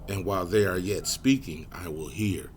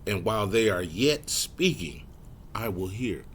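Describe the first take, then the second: First: It is read at a normal, quicker pace. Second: It is read at a slower, deliberate pace.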